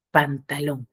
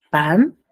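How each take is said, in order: First: Said in the usual way. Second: "Pantalón" in three separate beats, pan - ta - lón; syllable by syllable. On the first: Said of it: "cuántas sílabas pronuncio". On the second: Shown as a demonstration. Teacher showing three breath impulses, "Pantalón" split by syllables. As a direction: pause clearly after each syllable of "Pantalón". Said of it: "Pronuncio en tres impulsos respiratorios".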